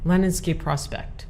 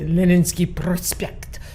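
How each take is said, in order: First: The name is said with an American accent. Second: The name is said with a Russian accent. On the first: "I'm going to use the American accent" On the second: "Otherwise, I want to say"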